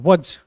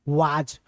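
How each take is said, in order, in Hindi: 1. स्वर छोटा और हल्का है, जैसे 'wuz'। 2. स्वर लंबा और भरा हुआ है, जैसे 'waaz'। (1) "अब इसको वज बोलिए तो ज्यादा अच्छा है" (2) "आप भी सुने होंगे वाज"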